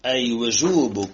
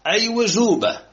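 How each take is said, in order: First: وجوب ending in "-bu"; وجوب linked onward with damma; nominative ending. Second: وجوبة said "wujuba", higher and louder; raised, emphatic fatha ending on وجوبة; accusative ending. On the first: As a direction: sound a final u on وجوب. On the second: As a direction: stress the final a of وجوبة. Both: Shown as a demonstration. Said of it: "عربوها قالوا مفعول به".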